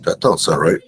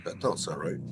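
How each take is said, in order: First: Echoing. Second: Said in the usual way. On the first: Real, not acted. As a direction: voice echoed back, delayed. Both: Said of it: "why do I sound like I'm echoing".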